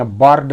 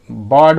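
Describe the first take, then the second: First: बर्ड with the R sounded; R sounded in bird. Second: बर्ड with the R left silent; silent R in bird. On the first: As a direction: say बर्ड as 'burrd', pronouncing the R. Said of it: "बर्ड नहीं". (बर्ड में R का साफ़ उच्चारण) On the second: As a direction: say बर्ड as 'buhd', no R sound. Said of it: "यहाँ पे भी बर्ड बोलेंगे". (बर्ड में R का उच्चारण नहीं) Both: Shown as a demonstration.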